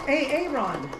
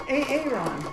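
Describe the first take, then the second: Both takes have the same delivery.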